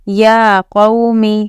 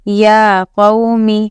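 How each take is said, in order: Both takes have the same delivery.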